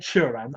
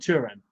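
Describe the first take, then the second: First: The opening T sound is dropped. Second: The opening T sound is clearly pronounced. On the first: The speaker calls it wrong. "I haven't said Turan" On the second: The speaker calls it right. "I have pronounced the T"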